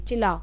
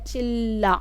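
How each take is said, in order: First: The middle l sound is short and light. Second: The middle l sound is long and heavy. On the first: The speaker calls it wrong. "कई बच्चे इसको चिल्ला पढ़ेंगे" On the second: The speaker calls it right. "ल पे ज्यादा जोर आ रहा है"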